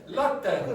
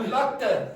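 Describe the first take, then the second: No difference in how they are said.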